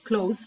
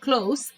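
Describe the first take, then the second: First: The word ends with a buzzing z sound. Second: The word ends with a hissing s sound. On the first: To shut something. The speaker calls it wrong. "not close" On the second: Something is near. The speaker calls it right. "just with S"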